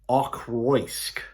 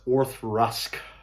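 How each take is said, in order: First: The name is pronounced letter by letter as spelled. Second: The name is pronounced differently from its spelling. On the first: The speaker calls it wrong. "It's spelled like Ochroisk" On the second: The speaker calls it right. "but it's Orthrusk"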